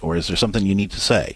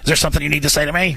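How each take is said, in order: First: It is asked in a gentle, sincere tone. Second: It is asked in a resentful, confrontational tone.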